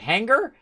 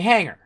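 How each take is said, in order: First: Said with a clear hard g sound. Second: Said with no hard g sound. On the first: "with the thing on the G" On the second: "you say it without any accent on it"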